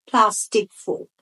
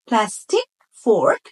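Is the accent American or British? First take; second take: British; American. First: British accent, with the r sound dropped. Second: American accent, with the r sound pronounced. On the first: "ব্রিটিশরা বলবে" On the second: "আমেরিকানরা বলবে"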